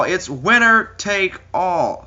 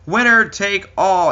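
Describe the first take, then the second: First: Higher, very slow announcer boom. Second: Higher, slow, booming announcer call. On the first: Ring announcer repeating the winner take all call. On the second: Ring announcer hyping the title versus title match. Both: Pretend.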